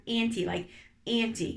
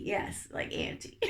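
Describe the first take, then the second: First: Said in the usual way. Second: Breathy laughing half-whisper; giggly whisper. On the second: Real, not acted. Host giggling to listeners about auntie role plays, laughing whisper. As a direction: laugh it out softly under your breath.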